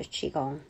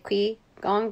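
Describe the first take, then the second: First: The first part is said as Qi. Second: The first part is read as English spelling. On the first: The speaker calls it right. "the pronunciation for Q I is Qi" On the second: The speaker calls it wrong. "I used to say Qi Gong because that's what my American mind um, reads into"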